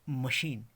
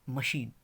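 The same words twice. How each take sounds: No difference in how they are said.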